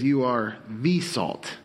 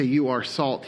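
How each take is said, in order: First: The said as slow, stressed thee; slow down and lean on the. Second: Said in the usual way. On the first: Shown as a demonstration. Preacher correcting the quote, slow with stress on the. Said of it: "There aren't other salts". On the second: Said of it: "He says, "You are the salt".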